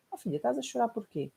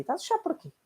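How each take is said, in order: First: Gentle mother. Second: Impatient mother. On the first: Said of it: "O que é que seria o feminino". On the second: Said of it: "O que é que acontece". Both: Retold or imitated.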